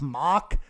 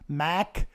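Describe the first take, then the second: First: The vowel is open, rhyming with 'lock'. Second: The vowel is flat, rhyming with 'back'. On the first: "I've heard them say mock" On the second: "not Mac"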